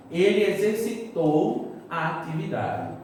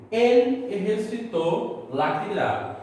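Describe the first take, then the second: First: Said in the usual way. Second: "exercitou" in Spanish, throaty j, stressed final o; Spanish pronunciation. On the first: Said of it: "falar em português". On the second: Shown as a demonstration. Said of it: "Quando eu digo yo".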